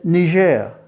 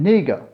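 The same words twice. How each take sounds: First: Niger is said the way TV broadcasters say it. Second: Niger is said the way local people say it. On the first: The speaker calls it wrong. "the announcers on T V, they said Niger" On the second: The speaker calls it right. "The local pronounce this name Niger"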